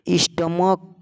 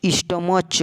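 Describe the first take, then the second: First: "स्टमक" ending in a k sound. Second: "स्टमच" ending in a ch sound. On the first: Teacher contrasting two readings, "स्टमक" with k. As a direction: say "स्टमक" with a hard "क" at the end. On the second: Teacher contrasting two readings, "स्टमच" with ch. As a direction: say "स्टमच" with "च" released at the end. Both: Shown as a demonstration. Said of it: "स्टमच है कि स्टमक है?".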